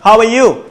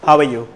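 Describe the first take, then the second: First: The voice rises at the end. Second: The voice stays level and falls at the end. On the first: The speaker calls it wrong. "Not হাউ আর ইউ, এভাবে বলা যাবে না" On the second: The speaker calls it right. "আমার normal ভাবে জিজ্ঞেস করতে হবে এরকম"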